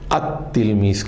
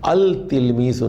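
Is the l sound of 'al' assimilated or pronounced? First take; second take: assimilated; pronounced. First: The l merges into a doubled t sound. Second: The l sound is clearly pronounced before tilmiz. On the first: The speaker calls it right. "बल्कि अत्तिलमीज़ कहेंगे" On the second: The speaker calls it wrong. "नहीं कहेंगे"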